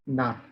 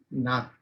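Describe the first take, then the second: First: The word ends in a t sound. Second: The word ends in a t sound.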